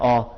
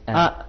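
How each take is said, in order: First: The vowel is thick and heavy, like aw. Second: The vowel is thin and light, like a. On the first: This is the Urdu way of saying it. The speaker calls it wrong. "हमजा के ऊपर अगर जबर है तो कहते हैं औ, लेकिन अरबी में औ नहीं है" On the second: This is the Arabic way of saying it. The speaker calls it right. "यानी बारीक है"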